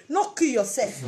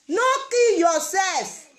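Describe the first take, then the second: First: Said in the usual way. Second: "No kill yourself" slowed right down and pressed harder; slow emphatic repeat. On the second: Real, not acted. Vlogger urging single women not to despair, slow and emphatic. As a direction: repeat it slow, each word landing.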